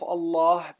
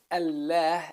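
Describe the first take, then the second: First: "Allah" with dark, back "lawh" sound; heavy lam. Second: "Allah" with thin, front "al-læh" sound; light lam. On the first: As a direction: say "Allah" with a thick L. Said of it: "in the name of Allah, it becomes a heavy letter". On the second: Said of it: "a light name". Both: Shown as a demonstration.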